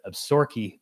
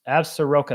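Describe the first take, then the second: First: The name is said the local way. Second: The name is said in a non-local way.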